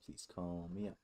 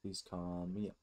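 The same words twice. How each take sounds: The two takes are said the same way.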